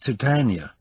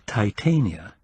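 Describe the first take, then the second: First: It is said to rhyme with Britannia. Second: It is said not rhyming with Britannia. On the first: "He pronounced Titania to rhyme with Britannia" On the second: "the Elizabethan pronunciation of the Latin"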